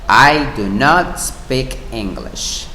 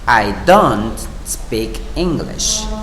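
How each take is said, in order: First: Do not is said as two full words. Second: Do not is joined into one contracted word.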